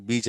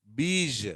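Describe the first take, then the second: First: బీజ్ quickly with a hard j; offhand బీజ్ with no zh buzz; common mispronunciation. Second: బీజ్ stretched as "beezh"; careful model బీజ్ with French-style zh; correct zh ending. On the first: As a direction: say బీజ్ as "beej", short ending. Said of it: "అని మనం పలుకుతూ ఉంటాం". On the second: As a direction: hold the buzzing zh at the end of బీజ్. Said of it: "బీజ్ అనేది పలకాలి". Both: Shown as a demonstration.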